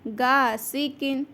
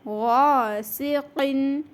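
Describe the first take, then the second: First: It starts with a plain, hard g sound. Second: It starts with a thick, throaty gh sound. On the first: The speaker calls it wrong. "अगर हमने इसको ऐसा कह दिया गासिकिन तो खुदारा इसका बिल्कुल माना भी चेंज हो जाएगा" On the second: The speaker calls it right. "गौन मोटा"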